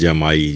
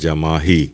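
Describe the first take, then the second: First: The word is said without an h sound. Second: The word is said with an h sound. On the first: The speaker calls it wrong. "लोग आमतौर पर इसको जमाई कहते हैं, बोलते भी हैं जमाई" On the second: The speaker calls it right. "असल लफ्ज़ है जमाही, जीम मीम अलिफ हे छोटी है"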